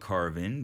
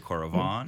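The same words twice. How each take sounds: First: It is said with a plain Australian pronunciation. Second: It is said with a slight French-sounding twang. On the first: "I call it Coravin because, you know, we're Australian" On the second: "put a little bit of a French twang on it"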